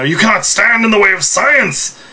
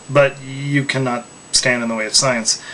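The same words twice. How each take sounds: First: Megalomaniac rant, raised and loud; supervillain voice. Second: Said in the usual way. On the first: Pretend. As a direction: proclaim it like a mad supervillain. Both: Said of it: "I'm not trying to sound like a supervillain here".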